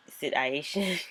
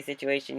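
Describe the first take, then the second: First: "situation" with the middle "u" turned into a long "eye", like "sit-eye-ation"; imitated pronunciation. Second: Said in the usual way. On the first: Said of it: "he says sit". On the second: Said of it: "I say situation".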